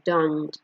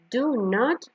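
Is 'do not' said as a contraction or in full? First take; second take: contraction; full. First: The words are contracted into one syllable. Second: Two separate full words are pronounced. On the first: "Es como una forma más corta de decirlo" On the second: "Son dos formas de pronunciar"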